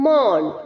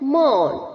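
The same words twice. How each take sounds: First: The vowel sounds like 'aw' in 'law'. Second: The vowel sounds like 'aw' in 'law'.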